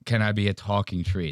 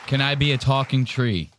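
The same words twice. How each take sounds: First: Quieter, lower mock of her plea; softer mocking repeat. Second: Lightly voiced mock of her naive plea. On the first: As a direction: toss her line back under your breath. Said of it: "That was a hilarious message". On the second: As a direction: ask it like a hopeful girl, a touch overdone. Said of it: "That was hilarious".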